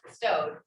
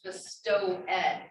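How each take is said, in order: First: The ending is joined onto the previous syllable. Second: The ending is said as a separate syllable. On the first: "it was just bestowed, so that you wouldn't have to give up that extra beat" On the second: "would have been pronounced bestow ed. They would have pronounced the ed part on the end"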